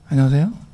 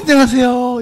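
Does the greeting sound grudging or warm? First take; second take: grudging; warm. First: The greeting sounds grudging and reluctant. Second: The greeting sounds warm and delighted. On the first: The speaker dislikes the person but must greet them. "정말 말 꼴도 보기 싫은데 인사는 해야 되겠고" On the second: The speaker is truly glad to see the person. "정말 반가운 사람에게 하는 인사"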